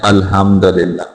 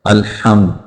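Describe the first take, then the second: First: Casual, unclear ha in अल्हम्दुलिल्लाह; common mispronunciation. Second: अल्हम्द with a distinct throaty Arabic ha; careful Arabic ha in अल्हम्द; clear ha. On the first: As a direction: say अल्हम्दुलिल्लाह quickly with an everyday Urdu h. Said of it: "लोग इसको पढ़ते हैं". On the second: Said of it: "हा को वाज़े करके पढ़ना है". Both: Shown as a demonstration.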